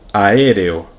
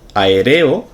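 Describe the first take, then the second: First: The stress falls on the first syllable. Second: The stress falls on the second syllable. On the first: "ponerle tilde en aéreo a la segunda" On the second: "tal como está escrito, sin tilde"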